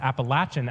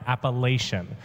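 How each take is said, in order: First: It is said the way locals pronounce it. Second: It is said the way outsiders pronounce it. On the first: This is how people in the region say it. The speaker calls it right. "they pronounce it Appalachian out there" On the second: This is how people from elsewhere say it. The speaker calls it wrong. "and not Appalachian"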